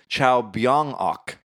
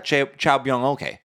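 First: The ending is said as one syllable. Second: The ending is said as the letters O-K. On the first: The speaker calls it right. "like however you would pronounce it with it" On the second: The speaker calls it wrong. "You don't just say the letters"

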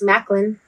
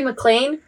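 First: The name ends with a short 'lin' sound. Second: The name ends with a long 'lean' sound. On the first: It is the English pronunciation. The speaker calls it right. "But in English, it's Macklin" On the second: It is read the way it is spelled. The speaker calls it wrong. "They say Maclean"

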